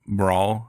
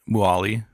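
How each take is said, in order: First: The middle 'r' sound is fully pronounced. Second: The middle 'r' sound is dropped. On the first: "they don't say the middle like" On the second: "It's like"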